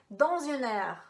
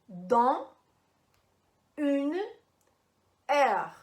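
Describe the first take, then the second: First: The words run together with linked sounds. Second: Each word is said separately, without linking. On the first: "a pronúncia da frase" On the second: "a pronúncia isolada"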